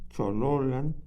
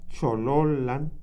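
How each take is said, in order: The two takes are said the same way.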